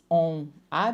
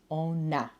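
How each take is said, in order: First: The two words are said separately, no link. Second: The N links into the vowel, one word.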